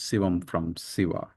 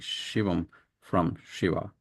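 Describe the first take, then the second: First: The names begin with an 's' sound. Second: The names begin with an 'sh' sound.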